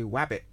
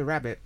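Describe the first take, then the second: First: Rabbit said as "wabbit"; comic mispronunciation. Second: Said in the usual way. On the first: Shown as a demonstration. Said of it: "When we say wabbit". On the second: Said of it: "It's the same with rabbit".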